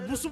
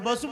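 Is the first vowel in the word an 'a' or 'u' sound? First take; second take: u; a. First: The first vowel is a rounded 'u' sound. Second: The first vowel is an open 'a' sound. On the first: A schooled person reads the spelling literally. The speaker calls it wrong. "చదువుకున్నోడు ఏమంటాడు? ... బి-యు-ఎస్" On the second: An unschooled person says the everyday form. The speaker calls it right. "సాకలోడు చదువుకోనోడు ఏమంటాడో తెలుసా? ఒరేయ్! బస్సు పోతుందంటాడు"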